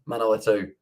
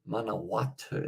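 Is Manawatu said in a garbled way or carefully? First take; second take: garbled; carefully. First: The place name comes out garbled. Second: The place name is said carefully. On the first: The speaker calls it wrong. "I feel like that's the worst that I've messed up a New Zealand place" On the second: The speaker calls it right. "that is"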